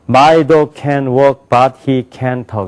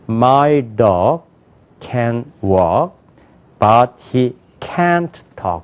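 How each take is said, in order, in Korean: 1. 모든 단어에 비슷하고 고른 강세를 줘요. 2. 중요한 단어는 크고 길게, 나머지는 약하게 말해요. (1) "이거를 방 사람은 ... 이렇게 한다고" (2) "중요한 데는 크고 높고 길게 읽고 중요하지 않은 건 버려요"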